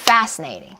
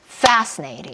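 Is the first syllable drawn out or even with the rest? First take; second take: drawn out; drawn out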